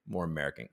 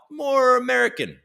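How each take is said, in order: First: Said in the usual way. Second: High, exaggerated American twang; put-on American accent. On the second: Shown as a demonstration. Streamer showing what accents he can do, mock American twang.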